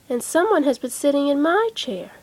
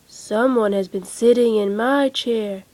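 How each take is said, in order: First: It is said in a middle-sized voice. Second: It is said in a great big voice.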